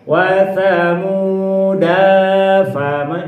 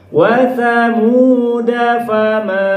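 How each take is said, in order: First: The final vowel of thamuda is held long. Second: The final vowel of thamuda is kept short. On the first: The speaker calls it wrong. "jadi gitu kalau alifnya dibaca" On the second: The speaker calls it right. "Alifnya dibuang"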